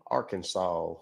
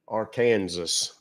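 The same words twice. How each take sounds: First: Said in the usual way. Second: Arkansas said ar-KAN-zus, drawn out; Arkansas like Kansas. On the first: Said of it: "they pronounce it wrong". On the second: Shown as a demonstration. Streamer jokingly insisting on his own pronunciation, Arkansas as ar-KAN-zus. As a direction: rhyme the end of Arkansas with Kansas, slowly. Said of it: "as I like to call it".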